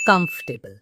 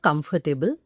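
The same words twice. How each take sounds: First: "comfortable" squeezed to COMF-tuh-bl; correct pronunciation. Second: "comfortable" with every syllable sounded, com-fer-ti-ble; mispronunciation demo. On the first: Teacher giving learners the correct form, compact "comfortable". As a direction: drop the middle syllable of "comfortable". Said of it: "That's the correct pronunciation". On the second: Teacher rejecting the common error, mispronounced "comfortable". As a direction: put a full "fer" inside "comfortable". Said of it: "but it's not comfortable". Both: Shown as a demonstration.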